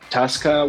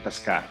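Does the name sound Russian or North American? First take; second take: North American; Russian. First: The name is said with a North American pronunciation. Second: The name is said with a Russian pronunciation.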